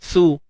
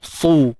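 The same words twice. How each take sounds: Both takes have the same delivery.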